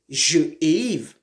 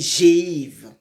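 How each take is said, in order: First: The vowel of je is kept before the verb. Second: The vowel of je is dropped and linked. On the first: The speaker calls it wrong. "on ne peut pas dire je éive" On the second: The speaker calls it right. "on dit j'éive"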